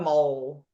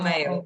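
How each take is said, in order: First: The vowel sounds like 'oh', as in mole. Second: The vowel sounds like 'ay', as in email. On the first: The speaker calls it wrong. "it sounds like you say mole" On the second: The speaker calls it right. "like you pronounce male, like email"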